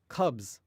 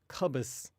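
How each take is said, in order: First: The final sound is a buzzing Z. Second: The final sound is a hissing S. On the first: The speaker calls it right. "we're saying the S as if it was a Z" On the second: The speaker calls it wrong. "I'm not saying cubus"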